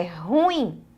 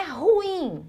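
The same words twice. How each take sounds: First: Ruim in two syllables, stressed ru-IM; correct prosody. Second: Ruim stressed on RU, as one falling syllable; wrong prosody. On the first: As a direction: land on the final i of ruim, lower. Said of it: "é ruim". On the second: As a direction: hit the u of ruim, higher and drawn out. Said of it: "Não é ruim". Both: Shown as a demonstration.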